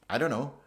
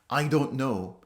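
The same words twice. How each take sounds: First: It is said in a relaxed, casual way. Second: It is said in a deliberate, literal way. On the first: The speaker is thinking before answering. "Very casual" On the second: The speaker really does not know the answer. "instead of saying"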